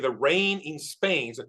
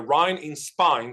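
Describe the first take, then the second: First: It uses the modern standard vowel pronunciation. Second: It uses an older English vowel pronunciation. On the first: It is further from the original English pronunciation. "more distant from the original English pronunciation" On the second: It follows the original English pronunciation. "Eliza Doolittle pronounces very beautifully according to the original English"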